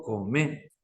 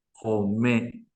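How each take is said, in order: First: "come" slowly, with a plain k sound; C pronunciation. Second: "come" slowly, with a glottal Q for the c; Q pronunciation. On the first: Teacher gives the example with letter C, slow plain "come". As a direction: model a slow, front-k "come". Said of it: "el ejemplo que doy con la letra C". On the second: Teacher shows the difference in Q, slow throaty "come". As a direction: draw out "come", its k far back in the throat. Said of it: "la diferencia en la Q". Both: Shown as a demonstration.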